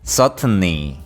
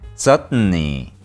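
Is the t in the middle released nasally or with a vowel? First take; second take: vowel; nasally. First: The middle t is released with a vowel sound. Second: The middle t is released through the nose. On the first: The speaker calls it wrong. "한국식으로 너무 착하게 발음하면" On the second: The speaker calls it right. "이 발음을 코로 먹어주신다고 생각하고"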